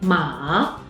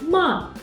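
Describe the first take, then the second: First: It is said with the third tone. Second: It is said with the fourth tone. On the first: It means horse. "is the third tone" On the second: It means to scold. "is the fourth tone"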